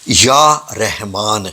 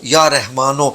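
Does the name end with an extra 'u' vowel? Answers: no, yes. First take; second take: no; yes. First: The name ends on the final n, no vowel. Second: The name ends with an added 'u' vowel. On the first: The speaker calls it right. "पेश नहीं पढ़नी।" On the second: The speaker calls it wrong. "पता नहीं लोग क्यों पेश एंड पे पढ़ाते हैं"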